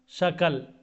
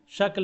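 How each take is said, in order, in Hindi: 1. k और l के बीच एक छोटा स्वर डाला जाता है। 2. k और l बिना किसी स्वर के जुड़े होते हैं। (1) "तो इसको क्या बोलते हैं वो, शकल" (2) "शक्ल है"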